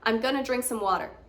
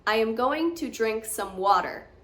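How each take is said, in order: First: It is quicker, with "gonna" and a softer R. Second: Each word is said fully and more slowly. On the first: "going to changes into gonna, and water kind of drops the hard R a little bit. It's a bit quicker" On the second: "I'm going to say them as they are written, which is with no accent"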